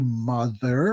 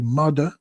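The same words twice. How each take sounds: First: The middle consonant is a soft 'th' sound. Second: The middle consonant is a hard 'd' sound. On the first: "we wouldn't say mother" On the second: "we always used to pronounce T H words with has a D"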